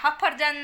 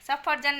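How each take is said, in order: First: The word begins with an h sound. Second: The word begins with an s sound. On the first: The speaker calls it wrong. "એને બોલતા નથી આવડતું" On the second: The speaker calls it right. "સફરજન ને હફરજન એમ બોલે છે"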